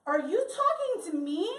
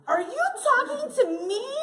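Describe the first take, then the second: First: Mildly raised, indignant question; a touch of affronted disbelief; offended challenge. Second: High, loud, indignant question; mock-outraged, pitched way up; escalated offended challenge. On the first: Retold or imitated. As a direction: lightly act a touchy comeback. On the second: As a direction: throw it back louder, outraged. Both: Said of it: "you're like".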